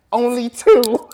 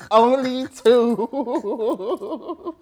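First: Short loud bark of an order; loud mock command. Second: Very slow, stretched-out words in a put-on voice; drawn-out mock command. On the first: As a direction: snap it out loud like a fed-up ark keeper. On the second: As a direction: drag every sound out like a fed-up ark keeper. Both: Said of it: "I'd be like".

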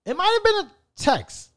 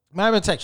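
First: Pitched up high as he recalls; high thinking-aloud correction. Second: Said in the usual way. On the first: Real, not acted. Correcting himself to the audience, voice jumping high. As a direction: muse it aloud on a high note.

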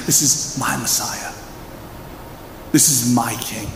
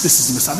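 First: Soft and slow with weight on my; hushed personal confession stressing my. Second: Said in the usual way. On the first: Shown as a demonstration. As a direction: lean on the word my. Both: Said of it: "Not just".

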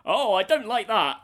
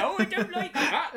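First: Prim villager disapproval. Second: High, laughing mock villager; prissy villager disapproval. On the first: Retold or imitated. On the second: Quoting the game's villager to a friend, high laughing mock disapproval. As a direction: squeak out the disapproval like a game NPC. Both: Villager sound bite voiced.

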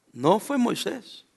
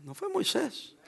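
First: "fue" stretched out slowly, leaned on; slow, deliberate stress on "fue"; slow emphatic. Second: "fue" said much softer, dropped almost to a hush; quiet falling "fue"; hushed repeat. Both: Shown as a demonstration. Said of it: "Voy a volver a decirlo".

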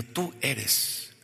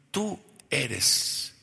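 First: Slow, deliberate prompt for the congregation to echo; slow repeat-after-me. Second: Said in the usual way. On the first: Shown as a demonstration. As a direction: say it slowly so they repeat it. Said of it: "dilo, tú eres". (frase lenta para que la congregación repita)

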